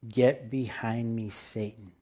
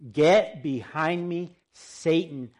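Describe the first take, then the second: First: It is said in a plain, calm reading voice. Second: It is said loudly with strong, forceful emphasis.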